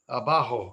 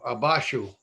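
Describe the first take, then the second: First: The middle consonant is a harsh H sound. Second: The middle consonant is an SH sound. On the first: This is the standard Spanish form. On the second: This is how Ladino speakers say it.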